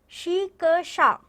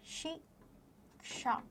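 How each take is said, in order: First: शिक्षा dragged out slowly and louder; wrong spelling read out. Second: शिक्षा whispered slowly with a clear क्ष; whispered correct form. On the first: Teacher reading the misspelt शिक्षा aloud to children. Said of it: "आपको लिखा हुआ है". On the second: Teacher softly modelling the correct शिक्षा for pupils. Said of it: "ये वाला अक्षर आ". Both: Shown as a demonstration.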